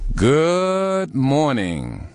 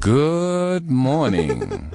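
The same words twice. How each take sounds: First: It is said long and powerfully. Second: It is said long but plainly.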